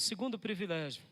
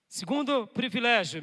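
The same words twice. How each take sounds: First: Said in the usual way. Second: "Segundo privilégio" announced louder, with weight; stress on Segundo privilégio. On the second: Shown as a demonstration. Preacher announcing "Segundo privilégio" to the church, loud and emphatic. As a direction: proclaim "Segundo privilégio" like a heading.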